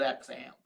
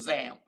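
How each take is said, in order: First: The name begins with an 'ex' sound. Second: The name begins with a 'z' sound. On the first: The speaker usually says it this way. "I've always called it X amp" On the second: Some other people say it this way. "I've heard it pronounced as ZAMP"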